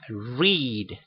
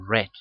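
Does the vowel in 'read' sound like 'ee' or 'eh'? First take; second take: ee; eh. First: The vowel is a long 'ee' sound. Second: The vowel is a short 'eh' sound. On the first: The reading happens now. "va a tener un sonido I" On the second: The reading happened in the past. "en pasado se va a leer read"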